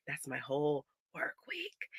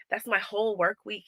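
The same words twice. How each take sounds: First: Slow, soft whispered despair. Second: Said in the usual way. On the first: Real, not acted. Mom telling viewers the lost week, whispered in defeat.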